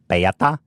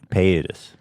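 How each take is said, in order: First: The name ends in a 'ta' sound. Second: The name ends in a 'tas' sound. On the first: The speaker calls it wrong. "I wasn't even close" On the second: The speaker calls it right. "it's Paytas"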